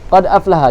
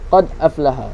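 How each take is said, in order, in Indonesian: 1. Huruf d bervokal, tanpa hentian glotis. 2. Huruf d tanpa vokal, lalu ada hentian glotis.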